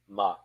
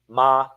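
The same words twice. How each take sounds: First: The pitch is heavy and drops abruptly. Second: The pitch stays level with no tone. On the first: It means to plate. "heavy, a stone too large for your hands, dropped in water" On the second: It means ghost. "Even with no tone to fetter, it lives"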